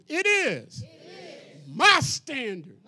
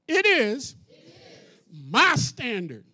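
First: It is said with bold attitude. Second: It is said plainly, without attitude. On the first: The speaker calls it right. "There you go" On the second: The speaker calls it wrong. "you ain't say it with attitude"

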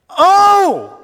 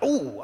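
First: It is cried out with strong emotion. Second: It is said casually, without strong emotion.

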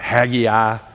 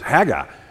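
First: The name is drawn out with extra syllables. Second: The name is said short and clipped. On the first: "kind of like you draw it out" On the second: "I think the pronunciation of this word is Haggai"

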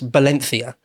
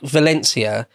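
First: The name is said with Spanish sounds. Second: The name is said with English sounds. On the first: The speaker calls it right. "should really be pronounced Valencia" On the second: The speaker calls it wrong. "I'm going to anglicise all the Spanish words"

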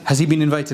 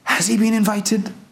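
First: It sounds like a plain, checking question. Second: It sounds like an exclamation of wonder. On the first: Asking whether he has permission to enter. The speaker calls it wrong. "You could read it as, has he been invited? Has he got a ticket?" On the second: Marvelling that he has been invited. The speaker calls it right. "But the better way to read it is, ... SubhanAllah, wonderful"

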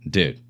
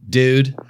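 First: The word sounds exasperated and disapproving. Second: The word sounds excited and enthusiastic. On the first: That is a really dumb idea. "dude, that's a really dumb idea" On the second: This is awesome. "dude, you know, this is awesome"

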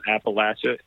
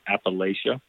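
First: It is said the way local people say it. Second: It is said the way outsiders say it. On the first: The speaker is from the region. The speaker calls it right. "It's called Appalachia" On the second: The speaker is not from the region. The speaker calls it wrong. "not Appalachia"

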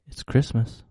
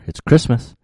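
First: It is said quietly. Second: It is said louder.

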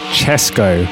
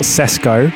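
First: The name begins with a ch sound. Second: The name begins with an s sound. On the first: The speaker calls it right. "it's Chesco" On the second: The speaker calls it wrong. "not Sesco"

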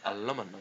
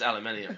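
First: The word is said with four syllables. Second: The word is said with five syllables. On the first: This is the American way to say it. The speaker calls it wrong. "I know it's not how you actually meant to say it" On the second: This is the proper way to say it. The speaker calls it right. "it's aluminium"

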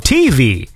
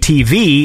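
First: The stress falls on the T. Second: The stress falls on the V. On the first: "they put the emphasis on the T" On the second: "I guess I put the emphasis on the V"

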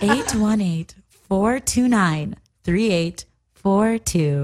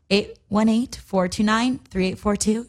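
First: It is said slowly and sexily. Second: It is said at a normal pace.

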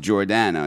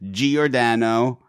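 First: The name begins with a single 'jor' sound. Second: The name begins with a separate 'gee-or' sound. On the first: This is how the family name is meant to be said. The speaker calls it right. "it's really pronounced like you would pronounce like the name Jordan" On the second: This is how most people say it. The speaker calls it wrong. "everyone says Giordano"

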